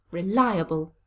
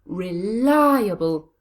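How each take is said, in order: First: Said in the usual way. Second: Reliable slow, with li long and loud; drawn-out, punched li in Reliable; stress on second syllable. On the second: Shown as a demonstration. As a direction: lean hard on the LI in Reliable. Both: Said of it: "It's on the second syllable".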